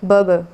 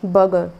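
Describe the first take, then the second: No difference in how they are said.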